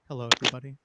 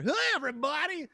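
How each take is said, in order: First: It is said quietly with low energy. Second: It is said loudly with high energy.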